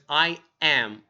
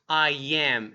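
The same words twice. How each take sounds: First: The two words are said separately. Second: The two words are run together smoothly. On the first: The speaker calls it wrong. "Try not to separate those two um, words" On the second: The speaker calls it right. "a great way to say that is I am"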